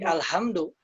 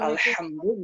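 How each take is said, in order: First: The h is a light or scraped sound. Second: The h is a tight, throaty, constricted sound. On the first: The meaning changes to something else. The speaker calls it wrong. "ada yang membacanya jadi H atau jadi Kha" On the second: It means all praise. The speaker calls it right. "Alhamdu harus tetap Alhamdu"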